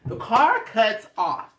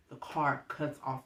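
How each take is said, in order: First: Slow and higher, each word stressed; loud, spaced-out restatement of "cuts off"; dramatic repeat. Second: Soft, low-key delivery; hushed, understated storytelling; subdued reveal. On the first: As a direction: draw out "car cuts off" emphatically. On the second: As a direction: drop the volume on the bad news. First take, subdued. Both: Real, not acted.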